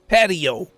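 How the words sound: It has an English pronunciation. "they pronounce it patio"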